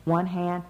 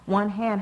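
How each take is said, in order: First: Said in the usual way. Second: One hand said higher and louder; stress on one hand. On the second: Acted. Mother scolding Hermione, One hand hit hard. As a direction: punch One hand as a warning.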